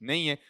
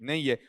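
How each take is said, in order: Both takes have the same delivery.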